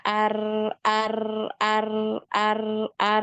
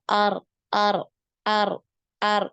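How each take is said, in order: First: Each r has two or three vibrations. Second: Each r has only one vibration. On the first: "ini sisa dua getaran ya atau tiga" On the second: "kemudian dikurangi jadi satu"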